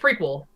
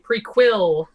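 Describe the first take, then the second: First: The stress is on the first syllable. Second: The stress is on the last syllable.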